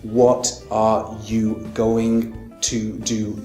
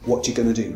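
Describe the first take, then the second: First: It is said slowly with every word separate. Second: It is said fast with the small words squeezed. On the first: "if I pronounce it slowly" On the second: "in a faster form"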